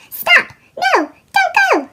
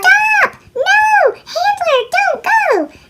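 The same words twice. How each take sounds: First: Shouting. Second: High, loud panicked yell; shouting. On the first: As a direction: yell to stop her in time. Squirrel warns Olive. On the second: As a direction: scream for him to brake. Olive yells at Handler. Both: Acted.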